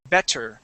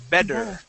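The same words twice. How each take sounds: First: The middle consonant is a crisp T sound. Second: The middle consonant is a soft D sound. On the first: The speaker calls it wrong. "I don't pronounce that word better with a T sound. I do not say better" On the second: The speaker calls it right. "I say bed with a D sound"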